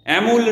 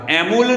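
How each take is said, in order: Both takes have the same delivery.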